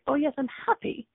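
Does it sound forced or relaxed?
relaxed. It sounds easy and relaxed.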